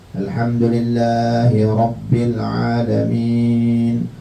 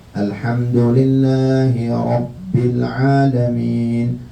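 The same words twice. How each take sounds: Both takes have the same delivery.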